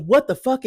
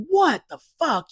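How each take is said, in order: First: Said in the usual way. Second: Exasperated. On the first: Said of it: "is not a phrase that I use". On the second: Shown as a demonstration. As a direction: throw it out fed up, pitched way up. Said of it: "I gotta kinda be exasperated".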